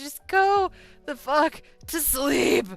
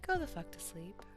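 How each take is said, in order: First: It is said with heavy, dramatic inflection. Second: It is said calmly, like a normal bedtime story.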